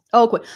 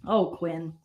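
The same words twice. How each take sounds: First: Louder exasperated "Oh, Quinn". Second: Softer, lower Oh, Quinn sighed. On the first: Vlogger exasperated at Quinn, louder call. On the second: Vlogger sighs about Quinn, soft and low. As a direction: sigh "Oh, Quinn" softly. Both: Real, not acted.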